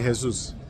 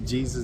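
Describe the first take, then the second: First: The word begins with an H sound. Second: The word begins with a J sound. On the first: "they speak the J as the H" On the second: "they don't say Jesus"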